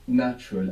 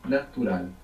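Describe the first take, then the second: First: It is said with English vowels and sounds. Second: It is said with Spanish vowels and sounds. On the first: "So you know natural" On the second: "A is like ah, U is like u"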